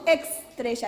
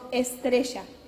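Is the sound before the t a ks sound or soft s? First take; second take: ks sound; soft s. First: The consonant before the t sounds like ks. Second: The consonant before the t is a soft s. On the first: The speaker calls it wrong. "no decimos estrella" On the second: The speaker calls it right. "decimos estrella"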